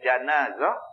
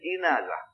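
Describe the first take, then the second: First: The first vowel is an open a sound. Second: The first vowel is an i sound. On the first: "baris di atas" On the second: "baris di bawah jim"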